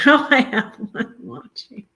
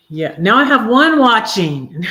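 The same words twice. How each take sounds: First: Laughing. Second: Higher and louder, amused; amused surprise. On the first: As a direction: laugh through it, higher. Repeats with laugh. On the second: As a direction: react to the dropping viewer count. Notices viewer count drop. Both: Real, not acted.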